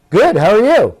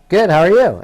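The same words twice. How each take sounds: First: Friendly reply. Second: Said in the usual way. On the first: Retold or imitated. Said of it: "I'll ad-lib for you". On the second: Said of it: "I'm being nice".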